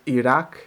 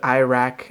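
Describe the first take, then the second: First: It has the local Arabic-style pronunciation. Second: It has a typical English-speaker pronunciation. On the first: The speaker calls it right. "and this is Iraq" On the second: The speaker calls it wrong. "native English speakers"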